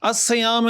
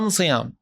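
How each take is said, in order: First: The article is pronounced with an S sound. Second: The article is pronounced with an M sound. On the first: This is the standard form. "अस सयाम है" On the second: This is a tribe's regional dialect. "उसको पढ़ते थे अम सयाम"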